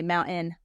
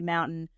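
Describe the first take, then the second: First: Mountain is said the local Utah way. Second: Mountain is said the general American way. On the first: "Utahns say mountain" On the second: "most Americans say mountain"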